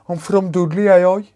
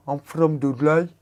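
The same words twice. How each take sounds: First: Put-on higher, louder broad Dudley accent. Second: Put-on Dudley accent. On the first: Streamer showing chat how Dudley folk talk, hammed-up Dudley accent. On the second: Streamer imitating how Dudley locals talk, in a Dudley accent. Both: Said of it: "That's how they talk there".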